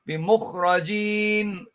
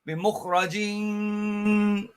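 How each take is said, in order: First: The final nasal sound is cut short. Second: The final nasal sound is held long. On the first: The speaker calls it right. "You just say بمخرجين and you stop" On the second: The speaker calls it wrong. "You don't say"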